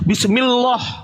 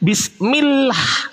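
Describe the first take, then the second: First: The l sound is heavy and thick. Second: The l sound is light and thin. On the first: The speaker calls it wrong. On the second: The speaker calls it right. "Tipis. Dibaca tarkik"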